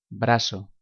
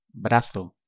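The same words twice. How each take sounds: First: The z is said like English s. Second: The z is said like English th.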